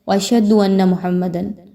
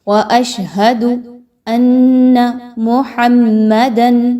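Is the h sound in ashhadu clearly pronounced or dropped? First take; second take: dropped; clear. First: The h sound in ashhadu is dropped. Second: The h sound in ashhadu is clearly pronounced. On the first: The speaker calls it wrong. "यहाँ पे लोग क्या मिस्टेक करते हैं" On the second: The speaker calls it right. "हा को प्रॉपर अदा करना है"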